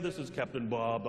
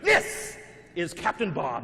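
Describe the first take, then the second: First: The voice is flat, slow and monotone. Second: The voice is loud, lively and booming. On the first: "monotone at first" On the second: "impersonation of a monster truck rally announcer"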